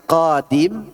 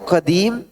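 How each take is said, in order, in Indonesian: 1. Vokal pertama dari kata itu dipanjangkan. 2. Vokal kedua dari kata itu dipanjangkan. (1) "Koknya panjang, dimnya enggak" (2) "Dan saya panjangkan qadim gitu kan"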